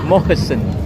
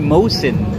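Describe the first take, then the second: First: The middle h sound is pronounced. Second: The middle h sound is dropped. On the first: This is the name's proper form. The speaker calls it right. "It's Mohisin, right?" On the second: This is how others shorten the name. The speaker calls it wrong. "others may they just say Mosin. it's not like that"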